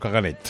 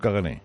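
First: The word ends with a T sound. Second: The word ends in a vowel, no final consonant. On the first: The speaker calls it wrong. "pero no caganet" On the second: The speaker calls it right. "Pero la R no se pronuncia, es un cagané"

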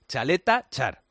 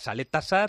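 First: Both parts begin with a ch sound. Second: Both parts begin with an s sound. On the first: The speaker calls it right. "pues se dice Chaleta Char, por lo menos pronunciado en croata" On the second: The speaker calls it wrong. "hay quien decía Saleta Sar"

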